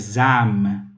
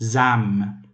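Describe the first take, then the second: No difference in how they are said.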